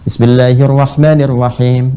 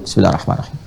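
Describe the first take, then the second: First: It is recited aloud, clearly audible. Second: It is recited quietly, barely audible. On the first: The basmala is recited audibly in prayer. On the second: The basmala is recited silently in prayer.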